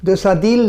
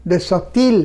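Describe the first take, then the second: First: দেশা দিল with a voiced d starting দিল; D sound. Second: দেশা তিল with a t starting তিল; T-sound liaison. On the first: Teacher rejects this liaison, দিল said with a d. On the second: Teacher corrects the French liaison, তিল said with a t. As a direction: make the linking consonant in তিল a clear t. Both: Shown as a demonstration. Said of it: "ত বলতে হবে".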